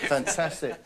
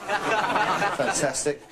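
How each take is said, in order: First: Said in the usual way. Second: Drawn-out fantastic. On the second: Acted. Drawn out exclamation.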